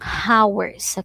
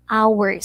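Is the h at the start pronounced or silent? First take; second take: pronounced; silent. First: The word begins with an audible h sound. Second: The word begins with no h sound. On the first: The speaker calls it wrong. "Hindi tayo nagsasabi ng hours" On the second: The speaker calls it right. "H is silent. So, we pronounce it actually as hours"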